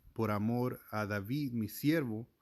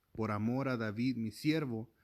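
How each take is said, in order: The two takes are said the same way.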